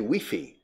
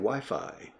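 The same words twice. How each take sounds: First: It is pronounced the way people in Spain say it. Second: It is pronounced the Latin American way, like English.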